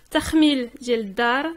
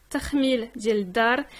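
Both takes have the same delivery.

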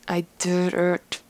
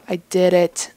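First: Slow, soft goofy drawl; silly drawl. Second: Said in the usual way. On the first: Acted. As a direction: stretch the vowels out softly, goofily distorted. Repeats line in silly drawl.

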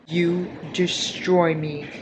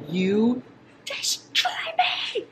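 First: Slow, drawn-out dramatic delivery. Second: Breathless high whisper; dramatic whisper. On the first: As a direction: let it hang like a confession. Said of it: "reading title dramatically". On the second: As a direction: whisper it like you're dying. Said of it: "repeats title whispered". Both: Pretend.

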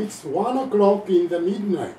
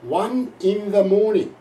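First: Put-on slow katakana-accented English; Japanese English. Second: Slow, careful English, louder; correct English. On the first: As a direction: spell it out as a Japanese speaker would. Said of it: "典型的なジャパニーズ・イングリッシュですよ". (ゆっくりした日本語英語の発音で) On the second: Shown as a demonstration. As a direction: model the natural English phrase. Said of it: "あるいは英語ではですね". (正しい英語の発音で、ゆっくりはっきり)

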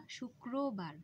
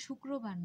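First: শুক্রবার as shuk-kro-bar, kro stressed; doubled k in শুক্রবার. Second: শুক্রবার run together as shu-kro-bar; single k in শুক্রবার. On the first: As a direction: hold the k in শুক্রবার, then push out "kro". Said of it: "আসলে উচ্চারণটা হবে শুক্র". (শুক্রবার-এ জোর দিয়ে শুক্-ক্রো উচ্চারণ) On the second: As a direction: say শুক্রবার quickly, without holding the k. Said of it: "আসলে উচ্চারণটা শুক্রবার না". (শুক্রবার-এ ক-এর দ্বিত্বহীন উচ্চারণ) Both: Shown as a demonstration.

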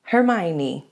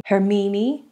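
First: Hermione said her-MY-nee; English pronunciation. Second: Hermine said her-MEE-nee; German pronunciation. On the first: Testing which version is English, Hermione as her-MY-nee. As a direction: say Hermione with an "eye" in the middle. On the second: Testing which version is German, Hermine as her-MEE-nee. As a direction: say Hermine with an "ee" in the middle. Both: Shown as a demonstration. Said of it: "which one is English and which".

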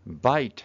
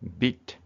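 First: バイト with a long "eye" vowel. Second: ビット with a short "ih" vowel; ビット, brief vowel, set apart. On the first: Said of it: "ここがアイって音になります". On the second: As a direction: say ビット as English "bit". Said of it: "短くイって音". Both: Shown as a demonstration.

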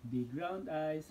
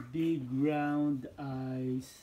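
First: Said in the usual way. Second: Slow. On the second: Real, not acted. Drawn out for toddler.

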